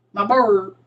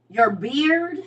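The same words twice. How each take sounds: First: "bird" with a heavy, falling UR; Saint Louis pronunciation. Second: "beard" with a clear EER, higher questioning pitch; standard pronunciation. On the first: Saint Louis speaker answering, "bird" for beard. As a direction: say "bird" with an UR vowel, meaning beard. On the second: Correcting a Saint Louis speaker, "beard" with clear EER. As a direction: question "beard", vowel as in ear. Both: Shown as a demonstration. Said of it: "Like, Saint Louis is her".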